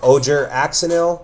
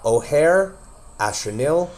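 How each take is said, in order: First: The name is pronounced with English-style sounds. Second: The name is pronounced with Spanish-style sounds. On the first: The speaker calls it wrong. "I see a lot of people say this wrong" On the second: The speaker calls it right. "a South American word, or South American pronunciation"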